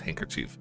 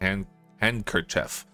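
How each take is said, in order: First: The d of hand is dropped. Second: The d of hand is clearly pronounced. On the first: This is how people usually say it. "but it's handkerchief" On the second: This is the technically correct pronunciation. "I know that's how you technically pronounce it"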